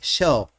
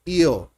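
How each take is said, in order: First: The first sound is like English sh. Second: The first sound is like English y.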